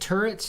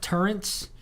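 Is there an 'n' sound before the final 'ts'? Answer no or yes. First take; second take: no; yes. First: The word ends in a plain 'ts' sound. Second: An 'n' sound comes before the final 'ts'. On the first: The speaker calls it right. "thank you for saying turrets" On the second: The speaker calls it wrong. "and not turrents"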